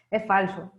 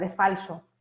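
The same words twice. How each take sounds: First: Slow, amused "Es falso" said through a laugh; laughing repeat. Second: Said in the usual way. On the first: Real, not acted. Teacher repeats her point to students, chuckling.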